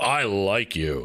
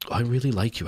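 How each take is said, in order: First: It is said boldly and manly. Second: It is said shyly and coyly.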